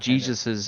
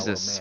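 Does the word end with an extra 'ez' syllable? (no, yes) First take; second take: yes; no. First: The word ends with an extra 'ez' syllable. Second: The word ends without an extra syllable. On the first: The speaker calls it wrong. "It is not Jesus's" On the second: The speaker calls it right. "it's Jesus. There is no es at the end of that"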